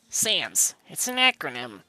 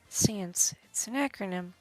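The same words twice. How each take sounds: First: It is read in a put-on voice. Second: It is read in a normal voice.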